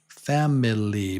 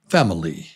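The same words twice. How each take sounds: First: The middle vowel is said fully and clearly. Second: The middle vowel is reduced to a faint schwa. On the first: The speaker calls it wrong. "it looks like family" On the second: The speaker calls it right. "but it's pronounced fam oli"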